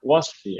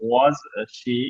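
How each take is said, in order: First: The two words run together without a pause. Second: There is a pause between the two words. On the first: The speaker calls it right. "একসাথে" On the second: The speaker calls it wrong. "এত pause নেব না"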